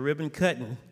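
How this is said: It is said in a Mississippi Southern accent. "every now and then that Mississippi sneaks out"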